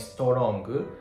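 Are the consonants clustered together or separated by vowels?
separated. Extra vowels separate each consonant sound. The speaker calls it wrong. "instead of saying strong"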